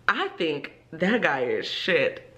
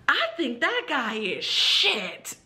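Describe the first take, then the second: First: Said in the usual way. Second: High, slow, deliberate pupil voice; imitated student. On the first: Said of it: "the target sentence". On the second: Student commenting on teacher's ex, slow and high-pitched. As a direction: mimic a child carefully delivering a sentence. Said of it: "she goes".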